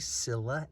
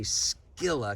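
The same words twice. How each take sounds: First: The word begins with an S sound. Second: The word begins with a K sound. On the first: This is how most people say it. "Probably people say Scilla" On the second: This follows the ancient Greek pronunciation. "the letter C in Greek is always pronounced K"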